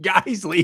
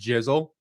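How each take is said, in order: First: The word begins with a hard G sound. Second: The word begins with a soft J sound. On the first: The speaker calls it right. "it's pronounced Guiseley, dude" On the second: The speaker calls it wrong. "He pronounced it "jizzle.""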